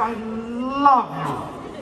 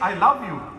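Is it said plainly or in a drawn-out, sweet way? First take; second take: drawn-out; plainly. First: It is said drawn out, sweet and melodic. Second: It is said plainly and briefly.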